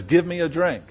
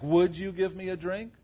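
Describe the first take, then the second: First: Commanding, statement tone; flat command. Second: Lilting question tone; polite question. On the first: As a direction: Give me a drink as a firm order, GIVE stressed with a falling end. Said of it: "Was that a question?". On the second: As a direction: ask "Would you give me a drink?" as a gentle request. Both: Shown as a demonstration.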